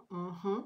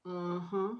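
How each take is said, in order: Both takes have the same delivery.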